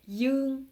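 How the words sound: The word begins with a 'y' sound. This is the southern pronunciation. "Mais le sud, ils vont prononcer Yung"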